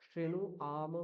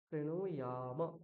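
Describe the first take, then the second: First: The ending is a plain 'am' without 'y'. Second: The ending is 'yam' with a 'y' glide. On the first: The speaker calls it wrong. "শ্রেণু আম বলা যাবে না" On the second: The speaker calls it right. "আম নয়, ইয়াম।"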